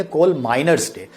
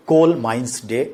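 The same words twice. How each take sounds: First: coal माइनर्स day with माइनर्स said clearly; teacher giving the right word after the slip; corrected term. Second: coal माइंस day said as the version to avoid; a casual slip of माइंस before the correction; wrong version. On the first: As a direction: make माइनर्स distinct from माइंस. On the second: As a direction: say माइंस, the form he then corrects. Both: Shown as a demonstration. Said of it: "माने माइनिंग नहीं बोलेंगे".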